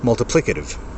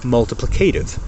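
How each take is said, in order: First: The main stress is on 'pli'. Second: The main stress is not on 'pli'. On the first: This is the British way to say it. "It's on the I in pli" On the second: This is the American way to say it. "That is how Americans say multiplicative"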